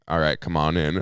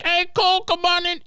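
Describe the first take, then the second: First: Said in the usual way. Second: Very high-pitched mock holler; high, squealed welcome; excited calling out. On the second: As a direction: call a friend in with a squeaky high voice. Voicing Garrett calling friend in.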